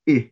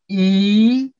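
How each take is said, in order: First: The vowel is short and open. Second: The vowel is long and closer. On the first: "the short vowel" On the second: "followed by the long vowel"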